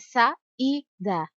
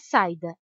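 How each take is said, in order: First: The i is clear and full, separate. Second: The i is weak and quick, gliding. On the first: The speaker calls it right. "Pronunciamos o som do I com clareza, em alto e bom som" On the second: The speaker calls it wrong. "Se o som do I fosse mais fraco e mais rápido"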